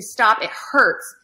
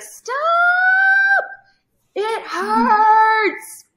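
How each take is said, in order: First: Toned-down retold scream. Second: Shrill-pitched mock scream, much higher and louder; imitating a topped-out scream. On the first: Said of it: "and just kept screaming". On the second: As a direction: cry it out way up high like a child in pain. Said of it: "but really high-pitched".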